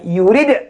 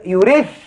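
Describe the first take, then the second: First: The final d is said clearly and distinctly. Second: The final d is not said clearly. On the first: The speaker calls it right. "Baca yurid" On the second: The speaker calls it wrong. "Jangan baca yurid"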